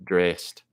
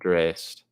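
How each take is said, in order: Both takes have the same delivery.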